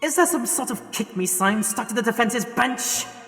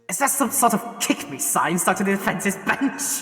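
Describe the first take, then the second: First: The line is said seriously, without laughing. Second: The line is said with suppressed laughter. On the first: The speaker calls it right. "try and do it with a straighter face" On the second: The speaker calls it wrong. "I couldn't say that line with a straight face"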